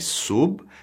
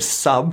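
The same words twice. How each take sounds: First: The syllable has a Spanish-like vowel. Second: The syllable has an English-like vowel. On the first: The speaker calls it right. "we need to say sub" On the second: The speaker calls it wrong. "instead of sub"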